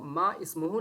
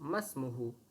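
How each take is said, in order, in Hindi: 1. दोनों शब्द अलग-अलग बोले जाते हैं। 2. दोनों शब्द जुड़कर एक हो जाते हैं। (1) "इसको मा इस्मुहु नहीं कहेंगे" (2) "मीम को सीन से जोड़ देंगे"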